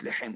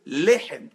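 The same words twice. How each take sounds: First: Lehem with the stress on the last syllabe, lehEM, slow; stress on the end. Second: Lehem stressed on the first syllabe, LEhem, louder; stress on the lamed. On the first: Teacher showing how a French speaker says Lehem, stress at the end. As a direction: put the weight on hem in Lehem. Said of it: "l'accent tonique sur la fin". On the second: Teacher showing how an Israeli says Lehem for bread, stress on the first syllable. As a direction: hit the LE of Lehem. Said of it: "l'accent tonique, il est sur le lamed". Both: Shown as a demonstration.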